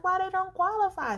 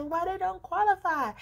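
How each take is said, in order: First: Higher and louder, indignant demand; agitated. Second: Repeated, higher and louder, pushing; agitated. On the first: Asking the loan agent why, agitated and high. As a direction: press the agent, worked up. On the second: Repeating the question to the agent, high and agitated. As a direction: demand it again, worked up. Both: Retold or imitated. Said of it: "Sorry for the shaking 'cause I'm excited".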